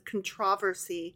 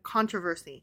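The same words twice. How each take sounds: First: It is said in a British accent. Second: It is said in an American accent. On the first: "when somebody British says controversy" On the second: "instead of controversy"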